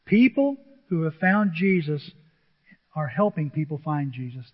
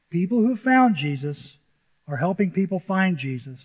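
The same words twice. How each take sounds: First: "People who have found Jesus" said slowly, each word weighted; slow emphatic statement. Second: Said in the usual way. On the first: Shown as a demonstration. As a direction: lay it down slowly, like a key line. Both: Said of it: "That's what I notice in this passage".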